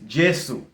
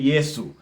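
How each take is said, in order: First: It is said the Shona way. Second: It is said the Bemba way. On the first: "in Shona, which is Jesu" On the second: "In my language, the same country, Zambia, we say Yesu"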